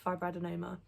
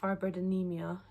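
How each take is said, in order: First: The word ends with an 'oma' sound. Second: The word ends with an 'emia' sound. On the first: The speaker calls it right. "say it right" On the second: The speaker calls it wrong. "I have been saying it wrong"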